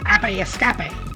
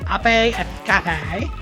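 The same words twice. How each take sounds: First: It is said with a light accent. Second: It is said with a heavy, exaggerated accent.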